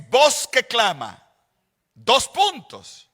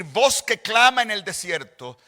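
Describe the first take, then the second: First: Slow, stop hard after "clama"; pause after clama. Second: Phrase "Voz que clama en el desierto" as a single unit, stress on clama; wrong phrasing. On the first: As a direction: say "Voz que clama", full stop, then "dos puntos". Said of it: "le voy a decir cómo debe leerse". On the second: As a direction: run together as one phrase. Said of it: "en vez de decir". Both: Shown as a demonstration.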